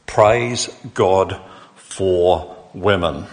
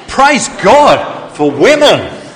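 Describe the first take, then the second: First: Very slow, evenly spaced words at normal volume; slow, measured statement. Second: High, slow, drawn-out shout; louder rallying cry. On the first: Real, not acted. Preacher on Mother's Day summing up his praise, slow and deliberate. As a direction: let each word stand on its own. Repeats the cry as own statement. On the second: Shown as a demonstration. Preacher leading the men in praise, long loud high shout. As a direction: belt it out so the whole auditorium rings. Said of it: "speak up a bit louder".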